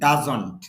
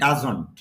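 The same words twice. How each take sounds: No difference in how they are said.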